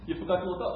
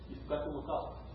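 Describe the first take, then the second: First: Said in the usual way. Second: Put-on softer, hushed child's reminder; son's soft reminder. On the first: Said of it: "It is such a simple story". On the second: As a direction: say it gently as the little boy. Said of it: "He says".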